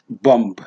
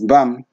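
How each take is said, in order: First: The final b is pronounced. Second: The final b is not pronounced. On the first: The speaker calls it wrong. "not bomb. Bomb, no" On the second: The speaker calls it right. "Even bum is bum"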